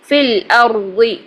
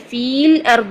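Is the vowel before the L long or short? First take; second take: short; long. First: The vowel before the L is cut short. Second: The vowel before the L is drawn out long. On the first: The speaker calls it right. "यहाँ पे हमने याय मद्दा को गिरा दिया और फा को डायरेक्ट लाम से जोड़ दिया" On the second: The speaker calls it wrong. "फील अर्द नहीं करेंगे"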